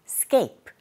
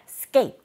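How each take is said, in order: The two takes are said the same way.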